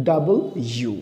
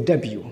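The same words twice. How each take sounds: First: British "ডাবল ইউ" in two clear words. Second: American "ডাব্লিউ", l dropped to dab-yu. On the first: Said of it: "ব্রিটিশরা বলবে". (British উচ্চারণে দুই শব্দে "ডাবল ইউ") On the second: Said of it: "আমেরিকানরা এটাকে বলে". (American উচ্চারণে ল ছাড়া "ডাব্লিউ") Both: Shown as a demonstration.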